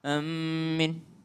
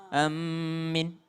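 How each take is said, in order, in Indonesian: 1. M-nya dobel dan vokal terakhir panjang. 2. M-nya dobel dan vokal terakhir panjang.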